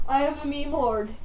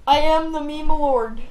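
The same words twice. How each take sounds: First: Said in the usual way. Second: "I am the meme lord" declared loud and slow; grand proclamation. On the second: Shown as a demonstration. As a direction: boom it out like a king.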